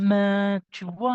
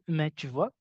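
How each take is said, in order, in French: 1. Les mots sont allongés et prolongés. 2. Les mots sont dits courts, sans être prolongés. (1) "il te parle avec, heu, de façon prolongée" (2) "Alors moi, en Afrique, je peux dire"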